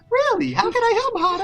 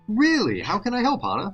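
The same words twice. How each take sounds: First: It is said in a higher-pitched voice. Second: It is said in a lower voice.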